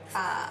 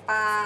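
First: The syllable is said on a low pitch. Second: The syllable is said on a level mid pitch.

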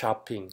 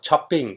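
First: It is said with English-style stress and sounds. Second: It is said with Thai-style tones and sounds. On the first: This is how native English speakers say it. The speaker calls it right. "ถ้าเป็นภาษาฝรั่งพูดต้องช้อปปิ้ง" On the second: This is how locals usually say it. The speaker calls it wrong. "พวกเราเวลาไปช้อปปิ้งเนี่ยเนี่ยเราพูดอย่างเงี้ย"

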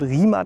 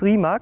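First: The name is said differently from its spelling. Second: The name is said just as it is spelled. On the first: The speaker calls it right. "aber es wird Rimac ausgesprochen" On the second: The speaker calls it wrong. "man schreibt es Rimac"

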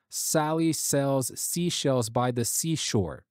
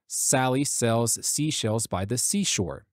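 First: The sharp S sounds are softened and smoothed. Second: The S sounds are sharp and unprocessed. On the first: "that's what the de-esser turned on" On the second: "Let me turn it off"

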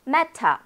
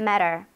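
First: The middle t is a clear, crisp t sound. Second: The middle t is a soft flap, like a light r.

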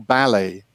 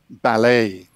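First: The stress is on the first syllable. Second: The stress is on the last syllable. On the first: This is the British English way. "No inglês britânico é mais anglicizado e a sílaba tônica está na primeira" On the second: This is the American English way. "O inglês americano tende a colocar a sílaba tônica onde está em francês"

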